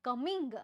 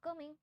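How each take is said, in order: First: The word ends with a clear final g sound. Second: The word ends without the final g sound. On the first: "ગની આપણે બોલીએ ત્યારે" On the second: "એ ગનું pronunciation નથી કરતા, ખાલી કમિંગ બોલે છે"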